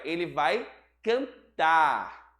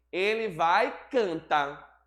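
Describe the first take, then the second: First: "cantar" with a sounded R, slow and deliberate; correct final R. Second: "cantar" said as "canta", slow; dropped final R. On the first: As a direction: say "cantar" carefully with its R. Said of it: "o certo é". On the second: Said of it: "esquecem do R no final do cantar". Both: Shown as a demonstration.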